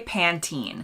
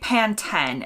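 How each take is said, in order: First: It is said the American way. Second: It is said the British way. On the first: The speaker calls it right. "Americans say Pantene" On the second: The speaker calls it wrong. "Brits tend to say Pantene"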